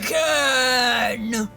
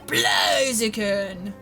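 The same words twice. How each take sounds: First: It is said in a loud, dramatic voice. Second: It is said in a plain, calm voice.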